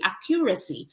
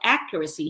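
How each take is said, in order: First: The stress is on a later syllable. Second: The stress is on the first syllable. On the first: The speaker calls it wrong. "hindi accuracy" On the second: The speaker calls it right. "Yung stress niya is um, on the first syllable. So accuracy"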